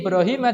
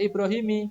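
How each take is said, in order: First: The word ends with a short 'a' vowel. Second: The word ends with a short 'i' vowel. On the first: The speaker calls it right. "tidak bisa dikasroh" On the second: The speaker calls it wrong. "tidak bisa Ibrahimi"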